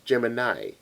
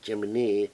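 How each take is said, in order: First: The name is said with an English pronunciation. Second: The name is said with a Japanese pronunciation. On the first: "in English it's" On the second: "the Japanese pronunciation is"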